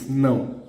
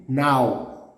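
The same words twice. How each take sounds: First: "não" with a nasalised ão; nasal diphthong on "não"; nasal sound. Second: "now" as an open oral "nau"; "now" with a mouth-only vowel; without the tilde. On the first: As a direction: say "não" through the nose. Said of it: "But it's não". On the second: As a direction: say "now" with no nasal sound. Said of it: "Without the accent would be". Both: Shown as a demonstration.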